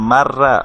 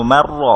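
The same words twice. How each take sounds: First: মার রা with a Bengali open রা; flat Bengali রা ending; wrong open ra. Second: মার র with a full thick র; thick Arabic র; heavy r. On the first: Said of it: "এরকম করে পড়বো না". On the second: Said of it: "মোটা করে পড়বো আমরা". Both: Shown as a demonstration.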